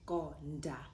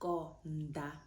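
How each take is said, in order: First: The d is hard, tongue behind the teeth. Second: The d is soft, tongue between the teeth. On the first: The speaker calls it wrong. "If you didn't have a copy underneath that D, you would say konda" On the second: The speaker calls it right. "it softens that letter and it allows you to put your tongue between your teeth"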